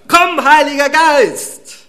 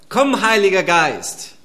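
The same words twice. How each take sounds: First: It is shouted at full volume. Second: It is called at moderate volume.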